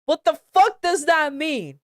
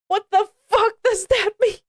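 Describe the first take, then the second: First: Said in the usual way. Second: Much higher, fast, laughing through the question; high laughing disbelief; laughing incredulous. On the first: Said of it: "repeated take, laughing". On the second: Real, not acted. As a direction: crack up in disbelief as you ask it. Reader breaks up at fanfic line.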